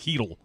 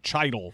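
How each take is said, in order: First: The name begins with an 'h' sound. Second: The name begins with a 'ch' sound. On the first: The speaker calls it right. "before I found out it was like Heedle" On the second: The speaker calls it wrong. "I was pronouncing it like Chidel for a long time"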